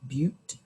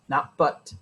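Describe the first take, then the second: First: The vowel sounds like the one in 'cute'. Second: The vowel sounds like the one in 'cut'. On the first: The speaker calls it right. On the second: The speaker calls it wrong.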